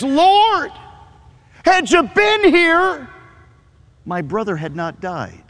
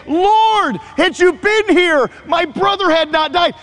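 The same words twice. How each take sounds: First: Martha pleading. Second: High, pleading and held high to the end; Mary pleading. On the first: Pastor voices Martha reproaching Jesus, high pleading grief. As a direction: voice Martha's grieving accusation. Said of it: "here's what she says". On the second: Pastor voices Mary repeating her sister's reproach, high plea. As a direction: voice Mary's grief, staying high. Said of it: "Mary says the exact same thing". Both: Retold or imitated.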